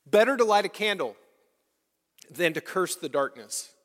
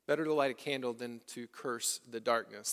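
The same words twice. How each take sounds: First: Louder and fast, ringing out; a bold pulpit proclamation; proclaimed quote. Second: Much softer, let it sink in; a quiet echo of the saying; soft repeat. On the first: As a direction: announce the saying boldly. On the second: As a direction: repeat it gently to the people. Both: Shown as a demonstration. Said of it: "Pay attention".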